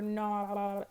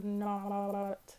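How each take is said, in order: First: It is said in a gurgly underwater voice. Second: It is said in a gurgly underwater voice.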